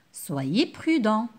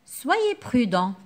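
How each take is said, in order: First: Slow "Soyez prudent" leaning on prudent; slow caring warning; gentle advice. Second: Slow "Soyez prudent" with weight on soyez; slow caring advice; gentle advice. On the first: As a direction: advise the listener calmly and slowly. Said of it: "Je donne un conseil". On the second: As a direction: warn kindly and slowly. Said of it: "Ici, je donne un conseil". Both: Shown as a demonstration.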